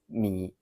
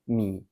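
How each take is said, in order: First: The third tone is said shortened. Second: The third tone is said shortened.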